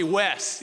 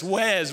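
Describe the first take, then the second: First: Said in the usual way. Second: "Wes" with a voiced z at the end. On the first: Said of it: "He doesn't call me Wes". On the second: Shown as a demonstration. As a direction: buzz the final consonant of "Wes" into a z. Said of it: "He says Wes with a Z".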